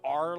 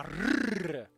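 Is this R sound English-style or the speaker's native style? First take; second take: English-style; native-style. First: The R is an English-style R. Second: The R is the speaker's native-style R. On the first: "we don't have an R like this" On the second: "We have a R"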